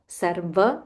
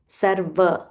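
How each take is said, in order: First: The middle consonant sounds like a V. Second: The same.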